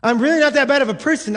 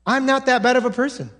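First: Faster, pushier insistence on not; insistent self-justifying. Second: Quick, defensive self-assurance; self-justifying. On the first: Preacher voicing a churchgoer, insisting defensively. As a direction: dig in, really protesting. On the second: Preacher voicing a self-satisfied churchgoer, defensive. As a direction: brush off the guilt quickly. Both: Retold or imitated. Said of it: "simply thinking to yourself".

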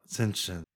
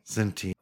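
First: Very soft "Sentient" as SEN-shent. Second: Very soft "Sentient" as SEN-tee-ent. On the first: Trying both ways to oneself, soft SEN-shent for "Sentient". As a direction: murmur "Sentient" with a sh for the T. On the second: Trying both ways to oneself, soft SEN-tee-ent for "Sentient". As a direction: murmur "Sentient" with the T sounded. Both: Shown as a demonstration. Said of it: "Who cares?".

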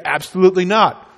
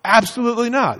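First: "Absolutely not" said firmly and a little louder; a steady, firm no; firm refusal. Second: "Absolutely not" pitched higher, more indignant; a rising, outraged no; indignant refusal. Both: Pretend. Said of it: "You would say".

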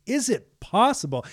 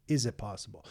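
First: Higher and louder, tossing the doubt right back; Jesus repeating the question in disbelief; incredulous challenge. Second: Softer and lower, a crushed father doubting; despairing doubt. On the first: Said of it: "Jesus, from his perspective". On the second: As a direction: ask it quietly, almost without hope. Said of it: "This guy, from his perspective". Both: Retold or imitated.

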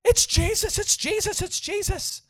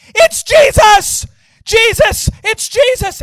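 First: High-pitched mock scream, held back in volume; imitated screaming. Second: High, very loud, stretched-out cries; retold screaming. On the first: Man on the ground starts screaming, imitated high cries. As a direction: repeat it in a high, frantic squeal. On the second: Man on the ground crying out, high screaming. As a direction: scream it like a man overwhelmed by a vision. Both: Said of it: "he starts screaming".

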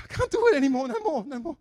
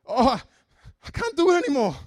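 First: Put-on high, loud Indian accent, repeated. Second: Put-on high, loud Indian accent complaint. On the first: Coworker repeating that he quits the Bible, Indian accent. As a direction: moan it again in the Indian accent. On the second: Coworker giving up on reading the Bible, Indian accent. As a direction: moan it in the friend's Indian accent. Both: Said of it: "With a very pronounced Indian accent".

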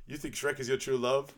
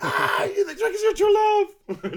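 First: Mildly disbelieving, slightly higher question; retold double-check, not yet shouting; incredulous question. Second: Very high, loud, drawn-out shriek of disbelief; hammed-up squealing outburst, slow and loud; hysterical mock shout. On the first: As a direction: ask it in controlled disbelief. First take, incredulous question. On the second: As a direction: burst out yelling in mock hysterics. Repeat take, both burst out.

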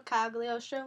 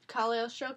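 First: "Cagliostro" with the g sounded, Cag-lio-stro. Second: "Cagliostro" with the g left silent, like Cal-yo-stro; Cagliostro said without the g. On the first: Host fixing the title, "Cagliostro" with the g clearly said. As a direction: correct "Cagliostro" by putting the g back in. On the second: Host trying out the anime's title, "Cagliostro" without the g. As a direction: say "Cagliostro" dropping the g sound. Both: Shown as a demonstration.

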